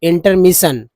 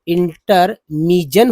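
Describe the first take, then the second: First: The ending is said with a 'shun' sound. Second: The ending is said with a 'jun' sound. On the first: The speaker calls it right. "यहाँ शन पढ़ा गया" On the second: The speaker calls it wrong. "यहाँ पर भी जन पढ़ दीजिए"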